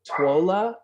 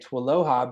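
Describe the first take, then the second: First: The name is squeezed into two syllables. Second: The name is said in three syllables, like aloha. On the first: The speaker calls it wrong. "A lot of people say Twola, which is when I look at it, it's not accurate" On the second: The speaker calls it right. "it's like aloha, but there's a T W at the beginning"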